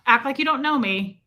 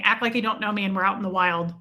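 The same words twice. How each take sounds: First: "don't" held long and leaned on; insisting on "don't". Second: Said in the usual way. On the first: Real, not acted. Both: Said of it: "Now, act like you don't know me".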